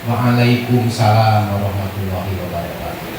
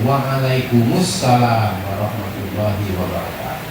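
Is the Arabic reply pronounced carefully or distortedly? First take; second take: distortedly; carefully. First: The reply is pronounced in a distorted way. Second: The reply is pronounced in a careful way. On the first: The speaker calls it wrong. "jawabannya yang sering salah" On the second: The speaker calls it right. "Harusnya yang benar itu"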